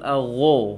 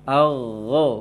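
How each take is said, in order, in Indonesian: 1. Vokal ini diucapkan dengan bibir membulat dan dimonyongkan. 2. Vokal ini diucapkan tanpa membulatkan bibir.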